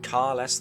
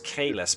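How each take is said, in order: First: The first syllable is a long 'car'. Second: The first syllable is a short 'ka'. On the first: "I go Car" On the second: "I know it's Kalis"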